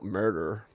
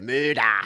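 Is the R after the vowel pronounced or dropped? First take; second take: pronounced; dropped. First: The R after the vowel is pronounced. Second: The R after the vowel is dropped.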